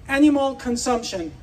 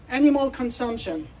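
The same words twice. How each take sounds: The two takes are said the same way.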